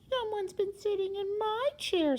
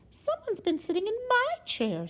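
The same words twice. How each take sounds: First: It is said in a wee little voice. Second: It is said in a middle-sized voice.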